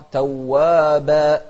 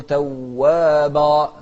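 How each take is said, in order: First: توابا with a thin final ba; light ba. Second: توابا with a thick, dark final vowel; wrong heavy ba. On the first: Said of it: "نرقق". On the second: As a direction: darken the ب of توابا. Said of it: "ما نقول توابا". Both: Shown as a demonstration.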